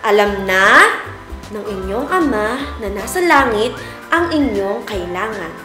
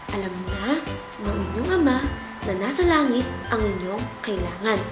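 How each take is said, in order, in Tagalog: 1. Binibigkas ito nang normal ang lakas ng boses. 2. Binibigkas ito nang mahina ang boses. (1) "ang gagamitin natin ay ang normal na boses natin" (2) "Isa, ibig sabihin mahina na boses"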